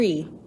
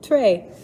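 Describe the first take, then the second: First: The vowel is a high 'ee' sound. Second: The vowel is a lower 'ay' sound. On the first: This is how the word sounds today. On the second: This is how the word used to sound.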